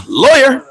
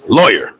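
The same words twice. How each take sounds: First: High insistent call of Lawyer; mock TV suspect calling out Lawyer; criminal demanding lawyer. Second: Lawyer dropped low and flat; a low final insistence on lawyer; criminal repeating lawyer. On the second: Retold or imitated. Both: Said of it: "first thing a criminal says is".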